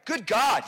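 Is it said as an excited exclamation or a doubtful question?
exclamation. It is an excited, confident exclamation.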